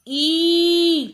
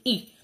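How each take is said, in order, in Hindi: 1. स्वर लंबा और खिंचा हुआ है। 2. स्वर छोटा और झटके वाला है। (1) "बड़ी बड़ी साउंड निकालना है, यानी लंबी साउंड निकालनी है" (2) "जो छोटी साउंड निकाली थी हमने ई निकाली थी"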